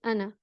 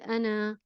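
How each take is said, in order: First: The final vowel is kept short. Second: The final vowel is stretched long. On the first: The speaker calls it right. "We just say ana" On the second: The speaker calls it wrong. "We don't read it as um, a long fatha sound. We don't say ana"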